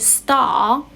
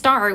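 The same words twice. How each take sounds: First: The final R sound is left silent. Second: The final R sound is clearly pronounced. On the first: "in British accent, we don't pronounce the R sound" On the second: "instead of a star"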